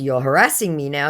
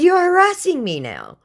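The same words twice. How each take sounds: First: Said in the usual way. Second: Sharp rebuke. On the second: Retold or imitated. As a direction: stress on "You're" in "You're harassing me now", pitched high and louder. She calls out harassment.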